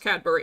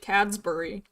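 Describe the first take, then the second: First: It is said without an S after Cad. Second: It is said with an S after Cad. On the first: The speaker calls it right. "I know it's Cadbury" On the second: The speaker calls it wrong. "I just kind of throw the S in there"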